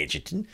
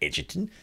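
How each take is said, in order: First: The name is said in an Australian accent. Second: The name is said in an Australian accent.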